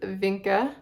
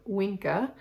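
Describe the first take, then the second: First: The name is pronounced the ordinary English way. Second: The name is pronounced the Latin way.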